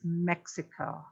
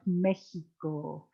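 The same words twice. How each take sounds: First: The word is pronounced the English way. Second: The word is pronounced the Spanish way. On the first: "it's Mexico to us" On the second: "That's Spanish, like Mexico"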